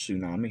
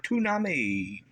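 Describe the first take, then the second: First: The word begins with a 'ts' sound. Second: The word begins with a plain 't' sound. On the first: The speaker calls it right. "He can't pronounce tsunami" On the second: The speaker calls it wrong. "He can't even speak right"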